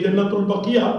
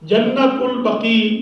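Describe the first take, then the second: First: The last word ends with an extra -iya syllable. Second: The last word ends with a long ee sound. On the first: The speaker calls it wrong. "जन्नतुल बकिया गलत है" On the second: The speaker calls it right. "तो अल बकी है लफ्ज़"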